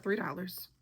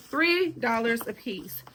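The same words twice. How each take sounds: First: Said in the usual way. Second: "Three dollars a piece" slowed and spaced out; emphatic repeat. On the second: Real, not acted. Telling viewers the bargain price, "Three dollars a piece" slowly emphasized. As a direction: dwell on each word of "Three dollars a piece".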